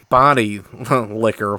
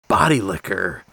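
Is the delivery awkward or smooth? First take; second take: awkward; smooth. First: It is said in an awkward, stilted way. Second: It is said in a smooth, suave way. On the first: "completely awkward and stilted" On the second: "just the smoothest"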